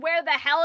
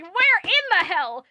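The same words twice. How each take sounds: First: Said in the usual way. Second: "Where in the hell" slow, with "in" leaned on; stress on in. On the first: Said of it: "they could have just said". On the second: Shown as a demonstration. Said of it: "I really like the "in".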